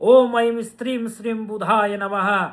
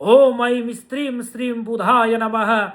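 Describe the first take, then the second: Both takes have the same delivery.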